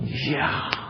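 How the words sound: It sounds very excited and eager.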